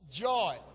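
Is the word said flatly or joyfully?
flatly. The word is said in a plain, flat way.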